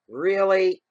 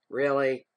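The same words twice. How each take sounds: First: Loud, high, long-drawn "really"; exaggerated disbelief. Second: Retold incredulous "Really?", fairly loud. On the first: Repeats it, escalating disbelief. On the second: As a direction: question it in loud disbelief. Incredulous reaction, first take.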